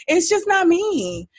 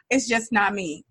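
First: Just stressed, pitched high and slow; It's just not me, high and dragged out; emphatic high. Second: Said in the usual way. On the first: Real, not acted. Repeats the confession for emphasis.

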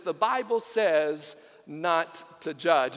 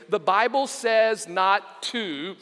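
First: "The Bible says not to judge" slowly, falling at "judge"; slow falling reveal; slow punchline. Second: "The Bible says not to" spoken slowly with a rise; slow quoted search phrase; slow read-out. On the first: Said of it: "finally it says this". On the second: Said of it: "I typed in the phrase". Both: Shown as a demonstration.

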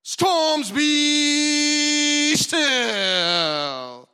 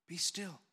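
First: Much higher and louder, yelled command; loud shouting rebuke. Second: Softer, gentle be still; calm the sea without raising the voice; calm quiet rebuke. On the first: Shown as a demonstration. Preacher showing the loud rebuke Jesus did not use, shouted. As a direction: bellow it at the storm. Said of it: "was not a loud". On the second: Acted. Jesus quietly telling the stormy sea to be still. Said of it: "His rebuke was not a loud".

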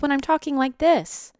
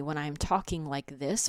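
First: Pitched way up and louder; high, hurried-sounding disembodied voice; raised, ungrounded voice. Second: Said in the usual way. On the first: Shown as a demonstration. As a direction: jump the voice up high. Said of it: "if my voice sounds like this". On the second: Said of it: "notice how you feel listening to me".

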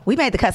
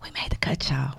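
First: Said in the usual way. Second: Breathy whispered aside. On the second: Acted. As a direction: hush it like a secret. Announcing she made the cut.

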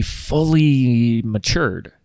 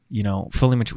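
First: "fully matured" stretched very slowly; drawn out. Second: Said in the usual way. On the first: Shown as a demonstration. Host explaining why the episode waited, slow stress.

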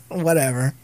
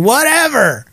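First: Said in the usual way. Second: High, drawn-out teasing dismissal; mock dismissive. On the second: Real, not acted. Teasing Jen who is listening, loudly dismissive. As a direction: call it out pointedly, pitch swooping up.

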